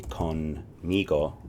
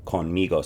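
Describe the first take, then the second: First: Conmigo drawn out slowly, syllable by syllable; slow repeat-after-me. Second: Said in the usual way. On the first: Shown as a demonstration. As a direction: stretch out conmigo for learners to copy. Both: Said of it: "Say it with me".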